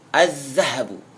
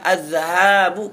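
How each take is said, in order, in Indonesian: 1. Vokal sebelum b itu pendek. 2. Vokal sebelum b itu panjang. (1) "Pendek haknya, artinya emas" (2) "Kalau panjang"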